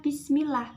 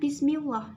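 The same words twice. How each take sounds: First: The L sound is light and thin. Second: The L sound is heavy and full. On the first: The speaker calls it right. "jadi kita membacanya bismillah" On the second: The speaker calls it wrong. "bukan bismillah"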